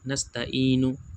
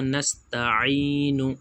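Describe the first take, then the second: First: The 'ain' is not produced from the throat. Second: The 'ain' is produced deep from the throat. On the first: The speaker calls it wrong. "ऐसे नहीं दोस्तों" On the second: The speaker calls it right. "आइन निकालनी है"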